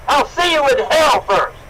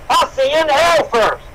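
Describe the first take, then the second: No difference in how they are said.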